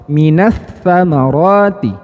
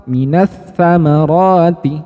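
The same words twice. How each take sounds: Both takes have the same delivery.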